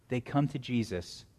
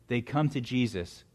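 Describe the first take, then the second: No difference in how they are said.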